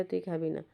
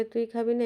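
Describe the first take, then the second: First: Answering pigeon. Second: Pushy pigeon's challenge, pitched higher; mock-bully the other bird; playful higher squabbling pigeon voice; taunting pigeon. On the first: Retold or imitated. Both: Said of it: "একে বলে".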